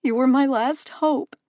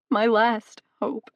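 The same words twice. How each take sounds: First: Higher and louder, breaking with grief; despairing mother sobbing to the god; sobbing plea. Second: Slow, broken repeat of the plea; sobbing echo. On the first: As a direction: wail it through tears. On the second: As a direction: let it collapse into a sob. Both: A narrator's reading. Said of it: "she sobbed into her hands".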